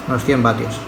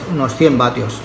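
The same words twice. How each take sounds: The two takes are said the same way.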